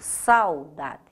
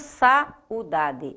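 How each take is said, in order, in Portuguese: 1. O 'a' e o 'u' se juntam numa única sílaba. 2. O 'a' e o 'u' são separados em sílabas diferentes. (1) "eu digo saudade. Eu faço isso numa única emissão sonora" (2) "Eu não digo saudade"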